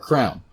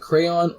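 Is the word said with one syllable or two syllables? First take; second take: one syllable; two syllables. First: The word is said as one syllable. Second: The word is said with two syllables. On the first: The speaker calls it wrong. "the abomination of people saying it like crown" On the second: The speaker calls it right. "do you pronounce it crayon or crown?"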